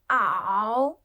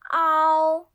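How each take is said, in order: First: The pitch dips low then rises. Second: The pitch stays high and level.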